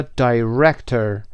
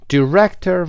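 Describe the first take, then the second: First: "director" starting die-, as in eye; long-i first vowel. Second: "Director" starting di-, short i; short first vowel. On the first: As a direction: say "director" as die-REC-tor. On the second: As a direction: say "Director" as di-REC-tor. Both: Shown as a demonstration. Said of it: "و یا director".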